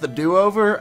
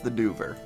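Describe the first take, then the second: First: It is said as three syllables, do-o-ver. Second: It is said as two syllables, Do-ver. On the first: "some people told me it's pronounced the do-over" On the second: "I'm pretty sure it's the Dover"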